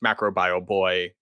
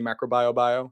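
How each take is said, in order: First: The name ends with the sound "boy". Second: The name ends with the sound "bio". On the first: The speaker calls it right. "So it's just Macrobio boy" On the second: The speaker calls it wrong. "they say Macrobio bio"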